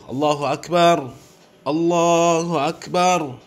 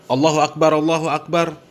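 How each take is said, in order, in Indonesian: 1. Setiap frasa berhenti, dengan jeda yang jelas di antaranya. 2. Setiap frasa berhenti, tetapi tanpa jeda di antaranya. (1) "kalau memang mau diwakofkan, kasih jeda waktu" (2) "Jangan ... Yang seperti itu salah ya"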